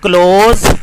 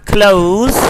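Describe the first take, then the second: First: "close" with a pure "aw"-like O; wrong vowel. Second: "close" as "cloh-ooz"; correct vowel. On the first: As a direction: say "close" without a glide. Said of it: "is not close". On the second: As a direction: glide the O in "close" towards "oo". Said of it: "but close". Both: Shown as a demonstration.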